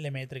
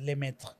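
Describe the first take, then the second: First: The name is read with Spanish sounds. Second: The name is said with French sounds. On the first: The speaker calls it wrong. "Que dicen Lemaitre" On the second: The speaker calls it right. "que es Lemaitre"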